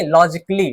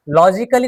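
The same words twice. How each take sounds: First: लॉजिकली as lo-jik-lee, falling; silent A. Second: लॉजिकली as lo-ji-ka-lee, four syllables; wrong, A sounded. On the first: Teacher correcting the reading, लॉजिकली in three syllables. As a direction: drop the A in लॉजिकली, k straight into lee. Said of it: "लॉजिकली नहीं". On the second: Teacher showing the reading to avoid, लॉजिकली with a full ka. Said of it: "नहीं". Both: Shown as a demonstration.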